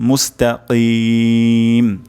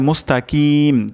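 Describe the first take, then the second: First: The k sound is made deep in the throat. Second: The k sound is an ordinary front k. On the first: The speaker calls it right. "এখানে কফ উচ্চারণ করতে হবে" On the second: The speaker calls it wrong. "যদি এমন হয় মুস্তাকিম তাহলে কিন্তু অশুদ্ধ হবে"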